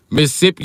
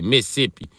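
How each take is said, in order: First: Said in the usual way. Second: Mississippi squashed to Missippi, middle syllable dropped; clipped Mississippi. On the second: Shown as a demonstration. Joking that Mississippi lost its letters, said as Missippi. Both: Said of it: "they don't say Mississippi".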